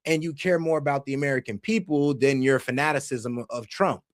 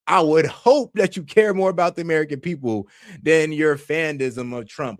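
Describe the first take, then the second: First: Said in the usual way. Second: Louder, pointed stress on "hope"; emphatic repeat. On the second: Real, not acted. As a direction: drive "I would hope" home with extra volume.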